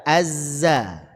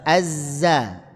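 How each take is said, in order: The two takes are said the same way.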